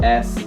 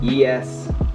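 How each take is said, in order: First: The name is said as one letter, S. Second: The name is said as two letters, E S. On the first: "some people just call it S" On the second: "I always call it E S"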